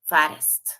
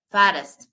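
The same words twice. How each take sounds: First: Fattest said much louder and lower, spelled-out word reassembled; stress on Fattest. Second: Fattest said much louder, punched; stress on Fattest. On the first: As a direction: land Fattest loud and low as the answer. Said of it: "le agrego T, S T". (Fattest fuerte y grave, como respuesta final) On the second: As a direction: hit the word Fattest hard for the class. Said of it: "partiendo de lo mismo". (Fattest muy fuerte y marcado) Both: Shown as a demonstration.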